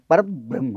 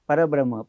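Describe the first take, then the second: First: The syllable before the consonant cluster is stressed. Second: The word is said flat, with no stress. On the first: The speaker calls it right. "आधीच्या शब्दावर आघात द्यायला लागतो" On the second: The speaker calls it wrong. "काही लोक म्हणतात असे सपाट म्हणतात"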